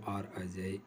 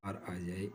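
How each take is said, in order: Both takes have the same delivery.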